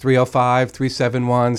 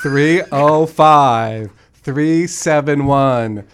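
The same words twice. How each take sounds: First: The number is said fast. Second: The number is said slowly.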